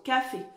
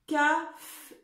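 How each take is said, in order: First: "Café" whole, ending on a clear é; son é rétabli. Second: "caf-" cut off on the f; son é manquant. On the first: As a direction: finish "Café" with a closed é. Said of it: "Il manque le son et". (« Café » avec un é final bien net) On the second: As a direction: say "caf-" without its final é. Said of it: "et il manque quoi?". (« caf- » coupé avant le é final) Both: Shown as a demonstration.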